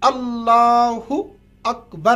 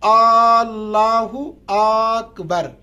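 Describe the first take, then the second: First: The opening hamza vowels are kept short. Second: An opening hamza vowel is stretched long. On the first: The opening takbir is valid. The speaker calls it right. "अल्लाहु अकबर आपको पढ़ना है" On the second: The opening takbir is not valid. The speaker calls it wrong. "यानी हमजा को खींचते हैं"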